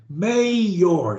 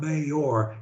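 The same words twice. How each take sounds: First: MAYOR with MAY lifted and stretched; exaggerated first syllable of mayor. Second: Said in the usual way. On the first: Shown as a demonstration. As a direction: push MAY up, then fall on OR. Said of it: "it's mayor". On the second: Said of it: "It's not mayor".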